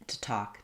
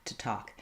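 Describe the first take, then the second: No difference in how they are said.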